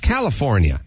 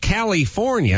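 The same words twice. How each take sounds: First: It is said with a standard American accent. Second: It is said with a heavy Austrian accent. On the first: This is how locals say it. The speaker calls it right. "it's California" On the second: This is how the governor says it. The speaker calls it wrong. "hey, Arnold, it's not California"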